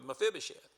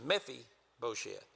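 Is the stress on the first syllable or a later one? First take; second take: later; first. First: The stress is on a later syllable. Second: The stress is on the first syllable. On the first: This is the familiar form most people grew up with. "most everybody, including myself, grew up with" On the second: This follows the form based on the Hebrew. "is the emphasis on the first syllable"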